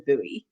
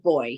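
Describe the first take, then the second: First: The word is said the American way. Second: The word is said the local, non-American way. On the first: "the Americans is a buoy" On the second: "We pronounce it buoy here"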